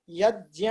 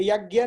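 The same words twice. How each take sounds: First: यज्ञ as "yaj-nya"; j into palatal n in यज्ञ; Sanskrit pronunciation. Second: यज्ञ as "yag-gya"; hard g plus y in यज्ञ; rejected pronunciation. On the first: Teacher slips into the right form, "jny" pronunciation. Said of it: "ए, यज्ञ नहीं बोलना है". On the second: Teacher corrects herself on what to avoid, "gy" pronunciation. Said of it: "नहीं बोलना है". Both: Shown as a demonstration.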